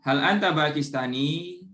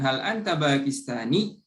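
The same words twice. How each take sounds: First: The final ya is drawn out as a long vowel. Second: The final ya is pressed and doubled, not lengthened. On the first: The speaker calls it wrong. "Jadi bukan hal anta Pakistani" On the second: The speaker calls it right. "Tadi Ana sedikit menekan"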